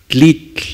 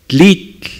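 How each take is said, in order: The two takes are said the same way.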